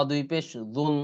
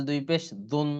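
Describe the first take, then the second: No difference in how they are said.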